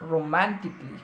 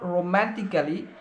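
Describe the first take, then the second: First: No vowel is heard before the final 'ly'. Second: An extra vowel is heard before the final 'ly'. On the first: The speaker calls it right. "It's রোম্যান্টিকলি" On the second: The speaker calls it wrong. "It's not রোম্যান্টিক্যালি"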